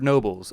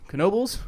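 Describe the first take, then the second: First: The word begins with a plain N sound. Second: The word begins with an audible K sound. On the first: "you don't really pronounce the K" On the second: "she's adamant that you say it with the K"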